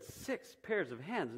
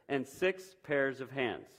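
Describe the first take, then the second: First: Slow, softer disbelief at six pairs of hands; incredulous question. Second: The Lord lists it slowly, landing hard on pairs, hands falling; slowly, ending on a firm fall; listing a demand. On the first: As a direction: repeat it back as if you can't believe it. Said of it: "shook her head slowly and said". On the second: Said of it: "The angel shook her head". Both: Acted.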